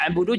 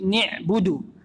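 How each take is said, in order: First: The first vowel is an 'a' sound. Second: The first vowel is an 'i' sound. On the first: The speaker calls it right. "harusnya na'budu" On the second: The speaker calls it wrong. "Nunnya dikasrohkan"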